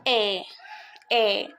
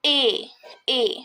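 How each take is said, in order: First: A as an open French è; grave accent sound. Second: A as a closed French é; clean, isolated é sound for A; acute accent sound. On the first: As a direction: say A lower and open, like "eh". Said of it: "the sound of grave accent". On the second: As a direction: say A as a tight, pure "ay" vowel, no glide. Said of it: "the sound of acute accent is". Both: Shown as a demonstration.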